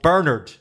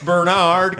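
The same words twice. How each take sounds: First: The name has its usual British stress. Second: The name has a changed, American-style stress. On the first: "he was called Bernard" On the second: "suddenly they changed the stress. It's very American and very fine"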